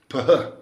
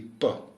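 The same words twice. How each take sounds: First: The p is released with a strong puff of breath. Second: The p is released without a puff of breath. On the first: "it's an aspirated P. You essentially exhale when you say the P" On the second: "if it didn't have the H, it'd be"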